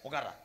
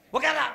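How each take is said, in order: First: Said in the usual way. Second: High, loud command to sit; shouted order. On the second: Acted. Man forcing someone to sit, sudden high shout. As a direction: explode on the repeated order.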